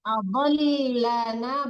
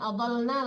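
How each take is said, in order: First: The lam sound is doubled and held. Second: The lam sound is single and short. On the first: The speaker calls it right. "lamnya tak mati, tasdid ya" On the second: The speaker calls it wrong.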